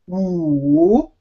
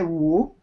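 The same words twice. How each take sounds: First: The word is said slowly with a long vowel. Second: The word is said quickly with a short vowel. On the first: This makes the dipping tone easier to produce. "say it very slowly and longer, lengthen the vowel" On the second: This is how native speakers usually say it. "because it's very quick"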